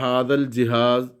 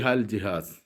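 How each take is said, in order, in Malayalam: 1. ആദ്യ വാക്കിൽ രണ്ട് സിലബിളുകളുണ്ട്, hadhal. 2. ആദ്യ വാക്ക് ഒരു സിലബിളായി ചുരുക്കി hal എന്ന് പറയുന്നു. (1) "ഹാദ എന്നത് നമ്മളിപ്പോൾ പലപ്പോഴും ഇവിടെ" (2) "ഹാദ എന്നത് ഹാ എന്നായി മാറും"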